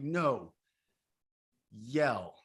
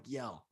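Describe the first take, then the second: First: Louder, insistent no, yell; firm louder command. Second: Said in the usual way. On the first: Retold or imitated. Coach urging retreat men to yell, louder command. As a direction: push them to really yell, louder. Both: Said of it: "I'm like".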